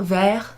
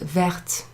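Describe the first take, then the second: First: The word ends without a t sound. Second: The word ends with a clear t sound. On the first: The thing described is masculine. The speaker calls it wrong. "Not vert" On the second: The thing described is feminine. The speaker calls it right. "you pronounce the T when you add that extra E"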